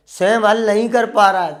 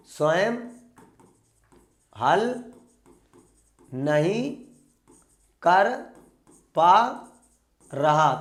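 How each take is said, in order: First: Said in the usual way. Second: Long pause after each of स्वयं, हल, नहीं, कर, पा, रहा; word by word. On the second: Shown as a demonstration. Teacher drilling the exam phrase into students, word by word with long pauses. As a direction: dictate it one isolated word at a time: स्वयं... हल... नहीं... कर... पा... रहा.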